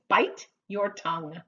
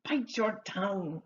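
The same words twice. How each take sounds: First: "Bite your tongue" with each word kept separate; careful word-by-word. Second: "Bite your tongue" run together, Bite linked into your; natural linked phrase. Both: Shown as a demonstration. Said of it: "That's about how it would be said".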